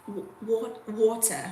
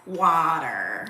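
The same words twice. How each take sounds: First: British accent. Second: Slow American water with hard r; drawn-out American water; American accent. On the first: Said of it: "how do you say water with a British accent". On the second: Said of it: "if you say it in America". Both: Shown as a demonstration.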